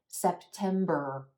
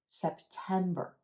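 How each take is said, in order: First: The last syllable is long and strong. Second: The last syllable is short and quiet. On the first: The speaker calls it wrong. "instead of" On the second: The speaker calls it right. "the er sound is unstressed in this word, so it's going to be quicker, quieter"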